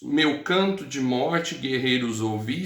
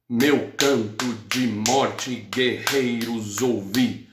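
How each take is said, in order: First: It is read in an ordinary, even way. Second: Stressed syllables are hit hard like drumbeats. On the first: "você pode ler" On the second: "se eu pegar a sílaba tônica"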